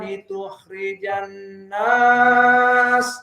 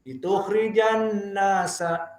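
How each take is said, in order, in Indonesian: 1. Bacaannya berhenti di 'nas' dengan vokal panjang. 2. Bacaannya terus bersambung dengan 'nasa' yang pendek. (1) "di sini nasnya panjang" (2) "nasa dua saja"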